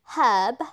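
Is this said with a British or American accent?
British. It is said the British way.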